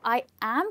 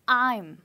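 First: It is said as two separate full words. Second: It is said as one contracted syllable.

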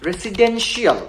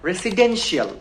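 The two takes are said the same way.

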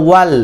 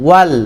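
Both takes have the same delivery.

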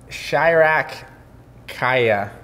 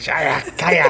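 First: It is said in a plain reading voice. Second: It is said aggressively, like a Dothraki.

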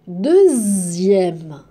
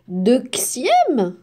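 First: The x is sounded as z. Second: The x is not sounded as z. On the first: The speaker calls it right. "Il y a la lettre x. Mais on la prononce z" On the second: The speaker calls it wrong.

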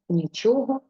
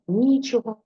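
First: The stress is on the second syllable. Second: The stress is on the first syllable. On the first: Anything is absent. "ми наголос переносимо на другий склад" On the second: There is no possibility of making use of anything. "ми ставимо наголос на першому складі"

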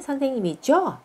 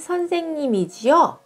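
First: The ending is contracted into one syllable, jyo. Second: The ending is said as two syllables, ji-yo. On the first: "これも、선생님이죠にしてもいいですね" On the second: "じよじゃなくて、じょって発音してもいいですね"

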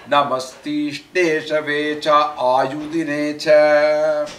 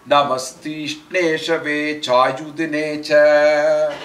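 No difference in how they are said.

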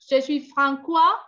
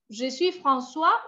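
First: The c is sounded as a hard k. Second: The c is sounded as a soft s. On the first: The speaker calls it wrong. "sin la C, ya están diciendo" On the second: The speaker calls it right. "Et c'est pas comme ça"

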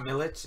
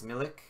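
First: The name ends with a ch sound. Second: The name ends with a k sound. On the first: The speaker calls it wrong. "I don't know why I pronounced it with a CH" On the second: The speaker calls it right. "it's pronounced like it's written"

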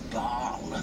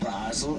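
First: The name is said with French pronunciation. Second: The name is said with German pronunciation. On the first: "Baal is the French pronunciation" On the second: "Basel the German"

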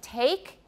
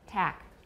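First: The vowel glides, as a full diphthong. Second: The vowel stays single, without a glide. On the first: The speaker calls it right. "instead of saying take" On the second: The speaker calls it wrong. "the second element of the diphthong in Taiwan is often dropped"

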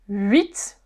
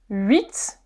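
Both takes have the same delivery.

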